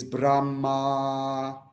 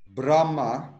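First: "Brahma" stretched very slowly, syllable by syllable; drawn-out Brahma. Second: Said in the usual way. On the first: Shown as a demonstration. Teacher intoning Brahma for his student, very slow. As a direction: draw "Brahma" out like a mantra. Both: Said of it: "is Brahma".

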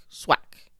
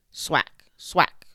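First: Breathy whispered sound-effect word; whispered swack. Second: Punchy, loud sound-effect word; loud, higher slap sound; loud swack. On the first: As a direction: let the last hit fade to a whisper. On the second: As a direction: smack the word out like a tail hit. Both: Acted. Crocodile tail sound effect.

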